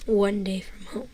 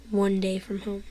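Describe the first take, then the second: No difference in how they are said.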